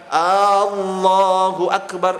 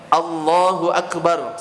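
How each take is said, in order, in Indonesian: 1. Vokal pembukanya dipanjangkan. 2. Vokal pembukanya pendek. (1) "saya panjangkan" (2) "Contoh Allahu akbar"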